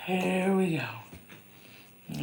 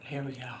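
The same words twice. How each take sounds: First: "Here we go" stretched very slow, rising at the end; long drawn-out rising "Here we go"; drawn-out sing-song. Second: Said in the usual way. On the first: Real, not acted. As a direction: sing it out slowly like a little tune.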